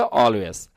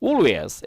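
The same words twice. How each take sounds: First: Always said the American way, like "al-wez"; American English Always; American pronunciation. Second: Always said the British way, like "ol-ways"; British English Always; British pronunciation. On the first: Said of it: "আর American কি বলে?". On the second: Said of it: "এটা যদি ব্রিটিশরা বলতো, কি বলতো?". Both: Shown as a demonstration.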